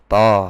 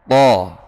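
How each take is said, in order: First: It is a plain light t followed by o. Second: It has a heavy sound with the tongue back raised. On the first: The speaker calls it wrong. "ta yang pakai vokal o" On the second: The speaker calls it right. "to itu dengan mengangkat lidah khususnya yang belakang"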